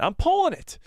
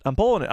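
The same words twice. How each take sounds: First: High excited squeal. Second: Said in the usual way. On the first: Real, not acted. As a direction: yelp it with delight. Repeated higher, excited.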